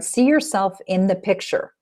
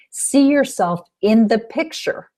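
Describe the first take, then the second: First: Said in the usual way. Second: Slow, rising and urged, SEE lifted; emphatic instruction. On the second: Shown as a demonstration. Coach urging listeners to picture it, slow and rising. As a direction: press "See yourself in the picture" slowly, lifting "See". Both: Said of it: "You could see it in your mind's eye".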